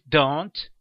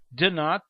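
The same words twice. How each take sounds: First: "don't" run into one syllable; contracted form. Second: "do not" as two separate words; full form. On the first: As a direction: contract it to a single word, "don't". (forma contraída "don't", numa sílaba só) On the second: (forma completa "do not", sem contração) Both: Shown as a demonstration. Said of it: "usaremos as contrações verbais".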